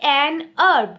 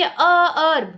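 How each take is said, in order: First: "herb" with a silent h, "an herb"; right herb. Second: "herb" said with its h, after "a"; wrong herb. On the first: Teacher giving the correct "an herb". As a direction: drop the h on "herb". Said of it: "इसका pronunciation herb है". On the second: Teacher voicing the incorrect "a herb". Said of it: "हम ये नहीं बोलेंगे". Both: Shown as a demonstration.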